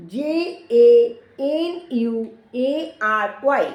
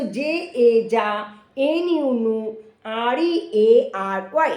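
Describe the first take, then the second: First: Said in the usual way. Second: Slow letter-by-letter spelling, each syllable voiced after its letters; teacher spelling a word slowly for small children; spelled in chunks. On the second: Shown as a demonstration. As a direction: break January into pieces: জে এ জা, এন ইউ নু. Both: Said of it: "জানুয়ারি ভেঙে ভেঙে তোমরা পড়বে".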